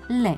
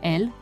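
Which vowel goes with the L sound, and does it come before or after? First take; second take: e after; e before. First: The L is followed by an e vowel. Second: The L is preceded by an e vowel. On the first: This is the form given by the norms. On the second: This form comes from foreign sources.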